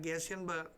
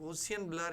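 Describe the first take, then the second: First: The first vowel sounds like 'e'. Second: The first vowel sounds like 'o'. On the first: Many people say it this way. "ઘણા ગેસિયન blur" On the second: This is the form used in this lesson. "આપણે ગોસિયન blur એવું બોલીશું"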